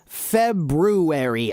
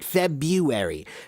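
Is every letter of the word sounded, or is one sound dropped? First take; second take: all sounded; sound dropped. First: Every sound of the written word is pronounced. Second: One sound of the written word is dropped. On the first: It follows the spelling. "I pronounce the, the month February" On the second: It is the common everyday way. "I don't pronounce it February. February is how many, many people pronounce it today"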